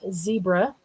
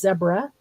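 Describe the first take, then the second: First: It is said the way Americans pronounce it. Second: It is said the way Canadians pronounce it. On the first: "not zebra, as we tend to in the U S" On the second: "in Canada you pronounce Z E B R A as zebra, also, like Africa does"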